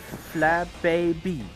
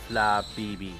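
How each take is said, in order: First: The middle syllable sounds like bay. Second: The middle syllable sounds like bee. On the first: This is how Americans say it. "At least this is the way the Americans pronounce it" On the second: This is how most Europeans say it. "most uh, European pronounce it with fla bibi. So two bees"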